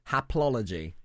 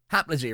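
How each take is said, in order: First: The word is said in full, every syllable. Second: The word is shortened, one syllable dropped. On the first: "it's a brilliant name" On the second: "if you're mumbling a little bit"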